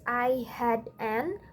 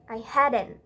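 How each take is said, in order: First: The words are said separately, without linking. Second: The words are linked into one smooth chunk.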